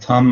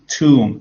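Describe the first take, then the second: First: The vowel is short. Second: The vowel is long. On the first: The speaker calls it wrong. "earlier you were kind of saying thumb or something like that" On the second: The speaker calls it right. "it should be like tomb, tomb. So it's a very long word"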